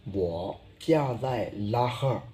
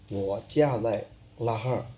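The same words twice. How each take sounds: The two takes are said the same way.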